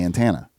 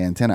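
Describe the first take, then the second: First: The word has a rural, country-style pronunciation. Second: The word has a standard, mainstream pronunciation. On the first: This is how the speaker's rural community says it. "I'd say antenna" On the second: This is how other people say it. "I wouldn't say antenna"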